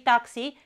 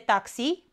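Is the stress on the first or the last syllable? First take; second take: first; last. First: The stress is on the first syllable. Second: The stress is on the last syllable. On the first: It follows the English borrowing. The speaker calls it wrong. "noi pronunțăm de obicei taxi, pentru că l-am împrumutat din engleză" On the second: It follows Romanian. The speaker calls it right. "Dar în românește este taxi, pe i"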